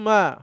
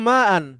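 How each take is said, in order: First: The word ends with a bare 'a' sound. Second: The word ends with an 'an' sound. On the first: "শুধু আপনার জবরও দরকার নেই, আপনি মা বলবেন" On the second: "জবর দিয়ে বলতে হবে"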